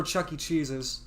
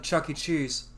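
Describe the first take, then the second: First: "Chuck E. Cheese's" ending in an added -s. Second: "Chuck E. Cheese" said as usual, no s; plain "Chuck E. Cheese". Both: Shown as a demonstration. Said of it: "never Chuck E. Cheese's".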